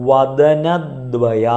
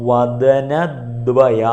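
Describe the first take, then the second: Both takes have the same delivery.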